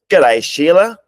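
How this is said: It is said in a put-on Australian accent.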